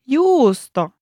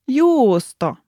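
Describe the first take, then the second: The two takes are said the same way.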